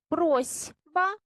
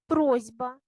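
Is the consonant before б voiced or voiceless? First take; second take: voiceless; voiced. First: The consonant before б is voiceless s. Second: The consonant before б is voiced z. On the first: This is how the word is written. "Пишемо просьба" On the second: This is how the word is actually pronounced. "а вимовляємо просьба"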